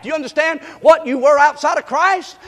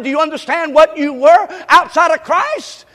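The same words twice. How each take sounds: First: Said in the usual way. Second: Same question, louder and pressed harder; louder repeat. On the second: Shown as a demonstration. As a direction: drive the question home louder. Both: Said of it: "I said".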